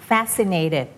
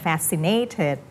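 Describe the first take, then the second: First: FASCINATED with the beat on FAS; FAS-cinated, stress not shifted; stress on first syllable. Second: FASCINATED said wrongly as fasci-NATED; imitated slip, late stress on FASCINATED; shifted stress. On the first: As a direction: keep FAS strong in FASCINATED. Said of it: "ไม่ต้องเลื่อน stress". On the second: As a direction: beat moved to NATE in FASCINATED. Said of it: "อย่าเลื่อนเป็น fascinated". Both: Shown as a demonstration.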